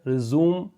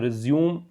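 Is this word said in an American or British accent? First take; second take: American; British. First: It is said with an American accent. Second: It is said with a British accent. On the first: "American English में इसको रिज्यूम बोलते हैं" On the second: "British English में"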